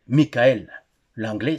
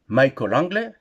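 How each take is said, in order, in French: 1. Le nom se prononce à la française. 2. Le nom se prononce à l'anglaise. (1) "ou en français" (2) "si vous voulez le prononcer en anglais"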